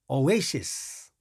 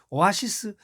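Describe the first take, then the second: First: The second syllable is said as 'ey'. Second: The second syllable is said as 'a'. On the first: The speaker calls it right. "오에시스 이렇게 발음합니다" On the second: The speaker calls it wrong. "미국 사람들은 절대 그렇게 발음하는 사람은 한 명도 없습니다"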